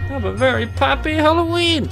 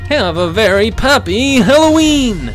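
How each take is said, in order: First: A mild attempt at a cartoon character voice. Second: A stronger, exaggerated cartoon character voice. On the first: The speaker calls it wrong. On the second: The speaker calls it right.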